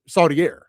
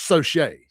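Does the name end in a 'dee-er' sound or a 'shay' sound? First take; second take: dee-er; shay. First: The name ends with a 'dee-er' sound. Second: The name ends with a 'shay' sound. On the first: It is read the way it is spelled. The speaker calls it wrong. "it's spelled like Gaudier" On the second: It is said the way locals say it. The speaker calls it right. "But it's pronounced Sauchet"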